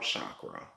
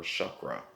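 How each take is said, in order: First: Chakra with "ah" in the first syllable; "shock-ruh" for chakra; mispronounced chakra. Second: Chakra with "uh" in the first syllable; "shuck-ruh" for chakra; corrected chakra. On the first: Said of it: "I'm pronouncing it wrong". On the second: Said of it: "It's pronounced chakra". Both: Real, not acted.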